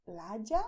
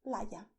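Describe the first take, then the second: First: Playa with y like English j. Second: Playa with a soft English y. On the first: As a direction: say playa as "pla-ja". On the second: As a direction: say playa as "pla-ya". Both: Shown as a demonstration. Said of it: "Both are correct".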